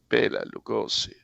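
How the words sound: The name is said the American way. This is how others in America called him. The speaker calls it wrong.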